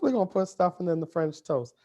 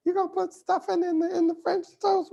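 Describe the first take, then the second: First: Said in the usual way. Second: Very high, incredulous put-on voice of a doubting friend; squeaky mock disbelief. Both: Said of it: "She's like".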